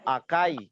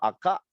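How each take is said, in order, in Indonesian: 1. Kata ini berakhir dengan bunyi i. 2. Bunyi i di akhir dihilangkan.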